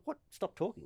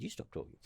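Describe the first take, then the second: First: Soft, high-pitched disbelieving question; retold incredulity. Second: Very soft, nearly voiceless comeback; retold retort. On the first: Player echoing umpire's order to stop talking, incredulous. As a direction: echo the order as if you can't believe it. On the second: Player answering umpire back, hushed retold retort. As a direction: turn the order back under your breath.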